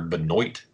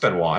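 First: The name is pronounced with an American accent. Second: The name is pronounced with a French-like accent. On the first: The speaker calls it wrong. "That's how a goddamn American would say it" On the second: The speaker calls it right. "I like how you say Benoit, man. It sounds like Grey Poupon"

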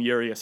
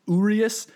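First: The stress is not on the middle syllable. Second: The stress is on the middle syllable. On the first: The speaker calls it wrong. "I think I've been calling him Urias a while" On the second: The speaker calls it right. "like O-O, re, emphasis on that re and then is"

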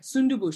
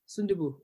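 First: One syllable is stressed, giving an uneven pitch. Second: All syllables are even, with a flat pitch. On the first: The speaker calls it wrong. "does my accent suck?" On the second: The speaker calls it right. "no accent"

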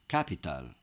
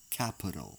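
First: Each vowel gets its own full, clear sound. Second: The unstressed vowels are reduced to a schwa.

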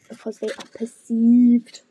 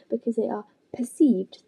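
First: The phrase is read plainly, without special emphasis. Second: The phrase is read with marked, italic-like emphasis. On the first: The speaker calls it wrong. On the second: The speaker calls it right. "I was trying to do an italicised voice"

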